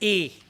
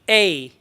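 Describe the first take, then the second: First: The vowel stays flat and steady. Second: The vowel curves into a glide. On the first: The speaker calls it wrong. "we mostly pronounce it as A. It's not A" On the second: The speaker calls it right. "it's the curvy sound"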